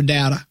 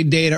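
First: Data with an open, short first A. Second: Data with a long A, rhyming with "later". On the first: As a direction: say data as DAT-uh. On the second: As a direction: say data as DAY-tuh. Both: Shown as a demonstration. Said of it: "You say data or data?".

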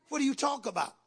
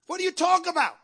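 First: Said in the usual way. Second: High, loud repeated challenge; emphatic preacher's demand. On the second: Real, not acted. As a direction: cry the question out at the congregation. Same question repeated as a cry.

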